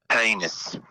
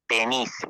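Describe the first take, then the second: First: It is said in a put-on Australian accent. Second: It is said in a put-on Mexican accent.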